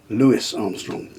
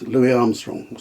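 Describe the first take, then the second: First: "[name]" said slowly and carefully, Louis as Lewis with a clear s; correct pronunciation. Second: Said in the usual way. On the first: Shown as a demonstration. Correcting his own "[name]" to the proper way, said slowly. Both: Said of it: "to pronounce it correctly".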